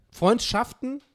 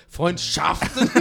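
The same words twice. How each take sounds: First: "Freundschaften" with a higher, odd push on SCHAFTEN; stress on SCHAFTEN. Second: "Freundschaften" slow, with SCHAFTEN punched hard and questioning; exaggerated stress on SCHAFTEN. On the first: Real, not acted. Answering a listener's question on humour, stress on "SCHAFTEN". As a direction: lean on the second half of "Freundschaften". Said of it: "Wieso sagst du jetzt das Schaften so?".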